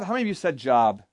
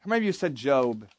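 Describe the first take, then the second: First: "job" said like the word for work; job with a short vowel. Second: "Job" said to rhyme with robe; Job with long o. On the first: Speaker polls campers on their reading, "job" with short o. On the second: Speaker polls campers on their reading, "Job" with long o. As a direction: say "Job" as the Bible name, long o. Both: Shown as a demonstration. Polls two pronunciations of one spelling.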